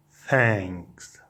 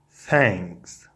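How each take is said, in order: Both takes have the same delivery.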